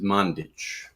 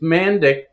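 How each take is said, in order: First: The surname is pronounced the original European way. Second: The surname is pronounced the everyday anglicized way. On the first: This is how it is said in Europe. "the proper pronunciation, if you're in Europe, is Mandic" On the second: This is how the family usually says it. "it's it's Mandic"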